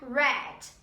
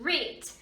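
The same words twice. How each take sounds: First: It uses the past-tense pronunciation of read. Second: It uses the present-tense pronunciation of read. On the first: The reading already happened. "No passado simples eu vou pronunciar read" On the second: The reading happens now or habitually. "Read no presente simples a gente pronuncia deste jeito"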